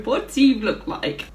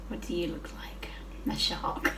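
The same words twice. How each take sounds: First: Said in the usual way. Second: Unvoiced whisper of "What do you look like?", no pitch at all. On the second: Shown as a demonstration. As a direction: breathe the question to the shark in a hushed whisper. Repeats question to pet shark.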